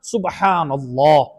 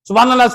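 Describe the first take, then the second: First: The 'b' and 'h' are heard as separate sounds. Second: The 'b' and 'h' merge into one 'bh' sound. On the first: The speaker calls it right. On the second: The speaker calls it wrong.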